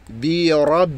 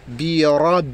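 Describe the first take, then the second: No difference in how they are said.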